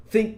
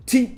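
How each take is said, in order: First: "think" opened with tongue-between-teeth TH; English TH. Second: "think" said as "tink"; learner's "think" with a plain T. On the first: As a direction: say "think" starting with the breathy dental TH, not T. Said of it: "think değil de think dedin". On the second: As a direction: start "think" with a hard T in place of TH. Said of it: "değil de think dedin diye". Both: Shown as a demonstration.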